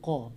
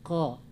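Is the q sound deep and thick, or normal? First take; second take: deep; normal. First: The q sound is thick and swallowed deep. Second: The q sound is light and ordinary. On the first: The speaker calls it wrong. "Jangan qa ya, jangan terlalu tebal" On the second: The speaker calls it right. "qa biasa aja qa"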